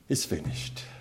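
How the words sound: It is said quietly, in a resigned tone. Everything has ended in defeat. The speaker calls it wrong. "I could see resignation"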